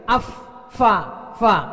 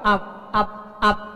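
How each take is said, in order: First: The consonant is an airy F with blown breath. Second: The consonant is a stopped P without airflow. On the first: The speaker calls it right. "tisunya mestinya tersembul gitu ya" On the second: The speaker calls it wrong. "Ini mah enggak"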